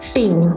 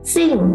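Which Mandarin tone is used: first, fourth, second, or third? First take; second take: third; fourth. First: The pitch dips low and then rises. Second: The pitch falls sharply from high to low.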